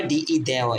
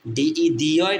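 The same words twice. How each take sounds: First: দেওয় sounded with "day"; ডিই spelt out, then দেওয় with a "de" sound; chosen reading. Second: দিওয় sounded with "dee", louder; ডিই spelt out, then দিওয় with a "dee" sound; alternative reading. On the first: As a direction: give দেওয় an open "e" vowel. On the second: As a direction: give দিওয় an "ee" vowel, as one option. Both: Shown as a demonstration. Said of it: "এখানে হবে দে".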